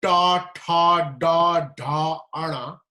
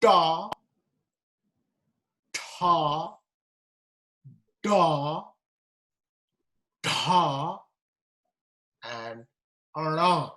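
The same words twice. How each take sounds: First: Ta, da, ana with tongue curled back; retroflex consonants. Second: Da, ta, da, ara said retroflex; tongue curled back on each syllable; curled tongue heavy consonants. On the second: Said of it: "Let's go back to the first one". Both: Shown as a demonstration.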